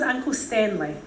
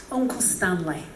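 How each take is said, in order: First: Said in the usual way. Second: Put-on lower, British-accented name. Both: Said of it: "he was British".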